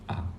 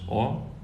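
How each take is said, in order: First: The vowel is an open unrounded 'a' sound. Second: The vowel is a full rounded 'o' sound. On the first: The vowel is in an unstressed syllable. "If or is unstressed, then you pronounce it as a" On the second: The vowel is in a stressed syllable. "If or is stressed, then you pronounce it as or"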